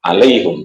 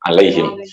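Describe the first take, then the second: First: The h carries a u vowel, not an i. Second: The h carries an i vowel, final m unvoweled. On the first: This is a less common reading used by Arabs. "Tidak alaihim tapi apa? Alaihum" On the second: This is the reading of the majority of scholars. "dibaca alaihim bikasril ha'i wa iskanil mim"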